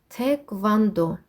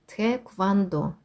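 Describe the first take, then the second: Both takes have the same delivery.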